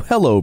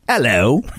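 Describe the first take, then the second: First: It is said in a plain American accent. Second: It is said in a put-on British accent.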